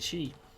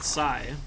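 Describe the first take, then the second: First: The word begins with an 'sh' sound. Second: The word begins with an 's' sound. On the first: The speaker calls it right. "It's supposed to be she" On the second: The speaker calls it wrong. "I've always said Psy"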